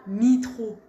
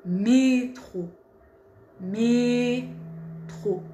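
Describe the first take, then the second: First: Mitro said with i instead of é; wrong vowel demo. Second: Métro with a closed é, not mitro; correct métro. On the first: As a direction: show the mistake: métro as mitro. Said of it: "on dit pas". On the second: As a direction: model the right métro, é not i. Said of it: "on dit pas mitro. Non". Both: Shown as a demonstration.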